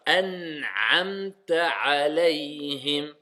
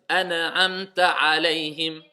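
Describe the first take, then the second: First: An'amta alayhim with the n crushed flat, no echo, slow; n pressed down. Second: An'amta alayhim with the n bounced and echoing; wrong echoing qalqala. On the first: Tajwid teacher showing students the correct reading. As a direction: press the n of An'amta down and keep it silent. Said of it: "on l'écrase". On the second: Tajwid teacher showing the wrong way to his class. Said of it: "pas mettre de qalqala partout". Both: Shown as a demonstration.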